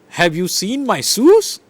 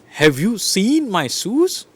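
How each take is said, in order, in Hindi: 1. 'shoes' शब्द पर मुख्य ज़ोर है। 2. 'you' शब्द पर मुख्य ज़ोर है।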